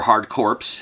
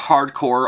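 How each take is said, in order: First: The last word ends with a corpse sound. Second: The last word ends in a plain core sound.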